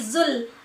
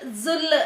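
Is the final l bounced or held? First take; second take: held; bounced. First: The final l is held without release. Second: The final l is released with a bounce. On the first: The speaker calls it right. "lamnya jangan dipantulkan tapi zul" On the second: The speaker calls it wrong. "terkadang suka biasa zul zul"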